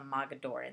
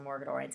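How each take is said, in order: First: No R sound follows the first vowel. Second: An R sound follows the first vowel. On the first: The speaker calls it right. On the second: The speaker calls it wrong.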